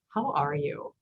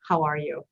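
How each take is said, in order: First: It sounds earnest and concerned, asking for a real answer. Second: It sounds light and casual, like a passing greeting. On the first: The asker truly wants to know how you are. "the same phrase, but but asked differently" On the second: It is just a friendly passing acknowledgment. "it's a way to say, hey, hi, I acknowledge you"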